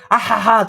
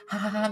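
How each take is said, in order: First: A big hearty laugh, much louder; loud, open "あはは" laugh. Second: A small restrained laugh, much softer; soft, restrained "ははは" laugh; quiet polite laugh. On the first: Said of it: "とかじゃなくて". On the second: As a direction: hold the laugh back politely. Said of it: "みたいな感じなんじゃないですか". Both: Shown as a demonstration.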